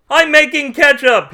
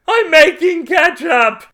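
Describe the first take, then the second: First: Very high, loud yell; high-pitched, full-volume shriek; manic scream. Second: Slow, piercingly high, loud shriek; high, strained, crazed yell held long; drawn-out scream. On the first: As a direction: scream it in crazed insistence. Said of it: "he screamed". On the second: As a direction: stretch every word into a manic scream. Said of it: "he screamed again". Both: A narrator's reading.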